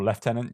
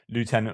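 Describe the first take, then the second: First: It is said with a British pronunciation. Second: It is said with an American pronunciation. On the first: "British English" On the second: "mixing my American and, and English, British English here"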